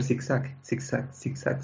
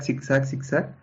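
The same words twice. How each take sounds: First: Slow, breathy whispered zigzag; whispered, dragged-out zigzag; drawn-out whisper. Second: Said in the usual way. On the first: Retold or imitated. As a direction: stretch zigzag, zigzag out slowly under your breath. Imitating the bus swerving.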